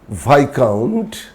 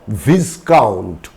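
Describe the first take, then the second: First: The s sound is left silent. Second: The s sound is clearly pronounced. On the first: The speaker calls it right. "S is silent" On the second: The speaker calls it wrong. "It's not viscount"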